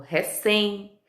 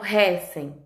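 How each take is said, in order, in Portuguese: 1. A tônica está na última sílaba. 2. A tônica está na primeira sílaba. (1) "eu falo recém" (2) "Eu não falo recém"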